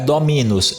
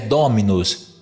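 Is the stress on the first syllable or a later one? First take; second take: later; first. First: The stress falls after the first syllable. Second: The stress falls on the first syllable. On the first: The speaker calls it wrong. "não é dominus" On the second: The speaker calls it right. "é dominus"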